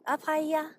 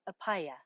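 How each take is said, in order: First: It is said in a high-pitched, girlish voice. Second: It is said in a plain, stiff adult voice. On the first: The greeting is a plea for love and protection. The speaker calls it right. "mimics a young girl's voice with high-pitched intonation" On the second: The speaker is guarded and defensive. The speaker calls it wrong. "I feel stiff, afraid"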